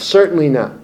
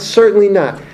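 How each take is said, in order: First: Said in the usual way. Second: CERTAINLY NOT hit hard, a little higher and falling; firm, final refusal on "Certainly not"; emphatic denial. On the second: Shown as a demonstration. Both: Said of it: "the most emphatic negative".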